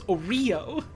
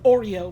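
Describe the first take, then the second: First: The stress is on the 're' syllable. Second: The stress is not on the 're' syllable. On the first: This is an unusual, funny pronunciation. "puts the stress on the re" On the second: This is how most people say it. "most people pronounce it like Oreo"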